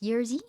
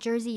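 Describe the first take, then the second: First: The name begins with a Y sound. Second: The name begins with an English J sound. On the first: The speaker calls it right. "J is pronounced like a Y in Polish" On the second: The speaker calls it wrong. "So it's not Jersey"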